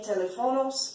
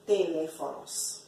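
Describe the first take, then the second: First: The stress falls on a syllable other than the second. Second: The stress falls on the second syllable. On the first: The speaker calls it wrong. "that's how the English would pronounce it" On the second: The speaker calls it right. "The accent mark tells you to stress the E"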